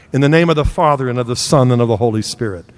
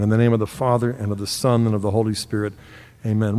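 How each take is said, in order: First: Measured, solemn sign of the cross; opening blessing. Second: Lower, softer hushed sign of the cross; closing blessing. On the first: Preacher leading the congregation into prayer, solemn. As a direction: begin the prayer with reverence. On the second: Preacher ending the prayer with the congregation, hushed reverent. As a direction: close the prayer gently. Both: Acted.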